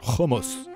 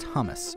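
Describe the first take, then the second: First: The word has the local Israeli pronunciation. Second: The word has an English pronunciation.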